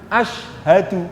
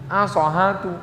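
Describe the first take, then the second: First: The word is said with a clear 'sh' sound. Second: The 'sh' sound becomes 's' with an extra vowel. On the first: The guide leads the recitation. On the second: The new convert struggles to repeat it.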